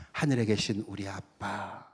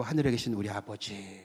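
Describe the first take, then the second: First: Put-on soft, slow "하늘에 계신 우리 아빠" said like a child to a dad; tender "아빠". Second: Said in the usual way. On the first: Shown as a demonstration. Pastor showing the congregation a tender, close prayer. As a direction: coo the word 아빠 gently. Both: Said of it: "어감이 좀 틀리죠?".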